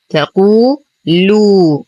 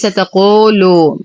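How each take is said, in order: First: The long vowels are held at full length. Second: The long vowels are cut short. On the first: The speaker calls it right. "نعطي المدود الطبيعية حقها مع إتمام الحركات" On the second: The speaker calls it wrong. "وهذا خطأ"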